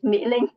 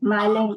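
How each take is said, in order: First: The first syllable is said like 'Mee'. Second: The first syllable is said like 'Mai'. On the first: The speaker calls it right. "but my name is Mỹ Linh" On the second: The speaker calls it wrong. "people usually like uh mispronounce my name is Mai Linh"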